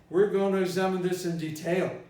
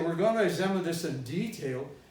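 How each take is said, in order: First: Detail is stressed on its second syllable. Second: Detail is stressed on its first syllable. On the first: Detail is used as a verb. The speaker calls it wrong. "because detail is a verb" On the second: Detail is used as a noun. The speaker calls it right. "Detail is a noun"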